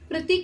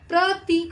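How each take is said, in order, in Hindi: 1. दूसरे अक्षर का स्वर छोटा है। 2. दूसरे अक्षर का स्वर लंबा है। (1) "प्रतीक नहीं होता" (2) "प्रतीक होता है"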